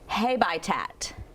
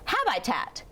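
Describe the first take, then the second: First: The first vowel is long, like 'hay'. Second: Short first vowel, full vowel in the middle. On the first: "Does that sound like a word you recognize?" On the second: "this will make a short sound"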